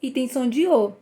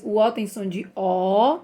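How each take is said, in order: First: The last O said closed, like ô. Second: The last O said open, like ó. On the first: Teacher contrasts two sounds of O for children, closed ô. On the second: Teacher contrasts two sounds of O for children, open ó. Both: Shown as a demonstration. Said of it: "Como eu falei pra vocês".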